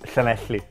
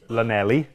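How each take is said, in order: First: The name starts with the Welsh double L. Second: The name starts with a plain English L. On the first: "in Welsh pronunciation is Llanelli" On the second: "most people would say that would be Lanelli"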